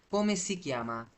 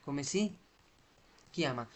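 First: Said in the usual way. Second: "Come si", long pause, then "chiama"; broken into parts. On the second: Shown as a demonstration. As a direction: let "si" rise, pause before "chiama". Teacher splits phrase for learners. ("Come si" বলে থেমে, তারপর "chiama")

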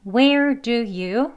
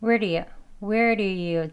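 First: "Where do you" slow and separate; drawn-out, word-by-word "Where do you"; full careful form. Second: "Where do you" linked with a tapped d; connected conversational "Where do you"; flap D. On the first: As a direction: pronounce each word of "Where do you" fully. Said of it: "여기 첫 페이지에서 보시면요". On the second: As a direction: run "Where do you" together, d softened toward r. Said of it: "flap D 발음으로요". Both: Shown as a demonstration.

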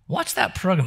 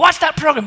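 First: Said in the usual way. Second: Louder, higher bossy command; devil's shouted order. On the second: Retold or imitated. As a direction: bark it down at him.

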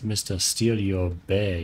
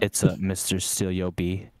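First: "Bay" said for "Bee", slow and drawn; wrong pronunciation. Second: "Bee" said clearly, slow and louder; corrected pronunciation. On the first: Acted. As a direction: stretch out "Steal Your Bay" slowly. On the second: Shown as a demonstration. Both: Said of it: "you're not doing it right".

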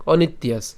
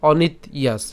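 First: "অনিত্যাস" as one word, the t joined to yas; said together. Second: "অনিত ইয়াস" in two parts, broken after t; said separately. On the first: Teacher recommending the joined form, "অনিত্যাস" in one go. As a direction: say "অনিত্যাস" without any break. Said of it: "একসাথে উচ্চারণ করলে ভালো". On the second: Teacher showing the split form, "অনিত" and "ইয়াস" apart. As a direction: stop on "অনিত", then say "ইয়াস" by itself. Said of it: "আর আলাদা উচ্চারণ করলে". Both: Shown as a demonstration.

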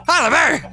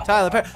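First: Higher, louder call of Tyler Perry; excited call. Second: Said in the usual way. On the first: Real, not acted. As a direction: shout the name Tyler Perry up high. Calling pet again louder.

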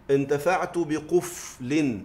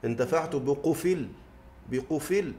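First: بقفل with still middle f and full -in ending; original case ending. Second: بقفل as biqufil, vowel moved onto the f; vowel transferred in pausing. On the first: Teacher showing the form before transfer, بقفل said slowly as biquf-lin. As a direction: hold the f in بقفل, then sound "lin", slowly. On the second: Teacher showing pausal transfer, بقفل pronounced biqufil. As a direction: stop on a silent l in بقفل: "bi-qu-fil". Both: Shown as a demonstration. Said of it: "عند النقل أقول إيه؟".

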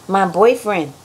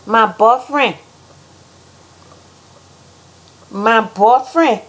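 First: Said in the usual way. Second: Put-on Liberian "boyfriend" with a clipped "bɔfɹɛn"; Liberian accent. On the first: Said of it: "how Americans say things". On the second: Shown as a demonstration. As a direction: say "boyfriend" as "bɔfɹɛn" without the final d. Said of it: "how Liberians say things".

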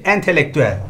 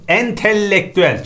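First: ENTELEKTÜEL with a short single l; correct single L. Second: ENTELEKTÜEL with a long doubled l; wrong double L. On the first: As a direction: say entelektüel as en-te-lek-tü-el. (entelektüel tek L ile) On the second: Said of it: "çift L'li değil". (entelektüel çift L ile) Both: Shown as a demonstration.

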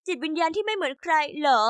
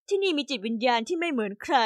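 First: Sarcastic echo. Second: Gentle coaxing. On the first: Teen daughter mocks her mom's words back at her, sarcastic. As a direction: throw the phrase back with mild contempt. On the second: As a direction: coax her kindly, lightly voiced. Mom soothing angry daughter. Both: Acted.

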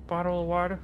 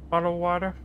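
No difference in how they are said.

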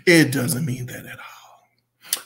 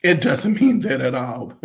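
First: Slow, fading into a whisper; hushed repeat. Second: Said in the usual way. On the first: Real, not acted. Reviewer telling popular artists the truth, hushed repeat. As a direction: repeat it slowly, letting the voice drop away. Emphatic point repeated in a hush.

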